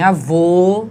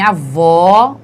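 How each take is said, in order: First: Avô with a slow, closed final O as in "oh". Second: Avó with a loud, open final O as in "aw". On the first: Teacher contrasting the circumflex sound in avô, closed O. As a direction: round and close the stressed O of avô. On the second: Teacher showing the acute accent's sound in avó, open O. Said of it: "o som é aberto". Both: Shown as a demonstration.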